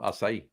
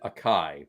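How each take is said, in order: First: The word is said the standard way. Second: The word is said an alternative way. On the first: The speaker calls it right. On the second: The speaker calls it wrong.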